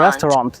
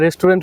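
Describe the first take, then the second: First: The word has an American-style pronunciation. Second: The word has a Bengali-style pronunciation. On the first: The speaker calls it right. "এটার pronunciation হবে" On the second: The speaker calls it wrong. "আজকে থেকে রেস্টুরেন্ট বলবেন না"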